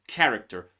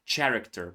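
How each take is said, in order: First: It begins with a k sound. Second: It begins with a ch sound. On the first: The speaker calls it right. "we pronounce just K" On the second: The speaker calls it wrong. "So many students say character, but no"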